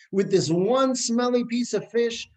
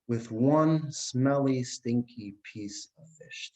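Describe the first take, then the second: First: Emphatic preaching. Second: Slow savouring. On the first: Preacher drives home the point. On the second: Husband savours the smelly fish. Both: Acted.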